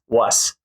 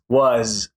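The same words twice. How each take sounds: First: The final sound is a hissing S. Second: The final sound is a buzzing Z. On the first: The speaker calls it wrong. "We don't say ... It's not an S sound" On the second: The speaker calls it right. "all end in Z"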